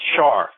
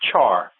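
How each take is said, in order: First: The name begins with an 'sh' sound. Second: The name begins with a 'ch' sound. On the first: The speaker calls it right. "as in Charlemagne" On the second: The speaker calls it wrong. "like he's some sort of barbecue"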